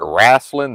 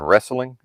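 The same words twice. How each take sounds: First: It is said with a regional Southern pronunciation. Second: It is said with a standard pronunciation.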